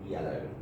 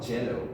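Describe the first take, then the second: First: It starts with a Y glide, no obstruction. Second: It starts with a J sound, a full consonant. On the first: The speaker calls it right. "It's yellow" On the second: The speaker calls it wrong. "It's not jello"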